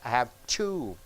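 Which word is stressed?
two. The stress falls on the last word. The speaker has two children. "This two means I have two"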